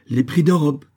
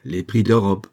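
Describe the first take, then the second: First: High, loud, final ruling; cutting short. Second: Firm repeat at normal pitch; cutting short. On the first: Governor leaves the lamenting merchant, cutting him short. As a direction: cut him off, "d'Europe" falling. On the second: Governor repeats his ruling on leaving, firm and final. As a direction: restate it as the last word. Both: A narrator's reading. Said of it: "coupa court en se retirant sur ses derniers mots".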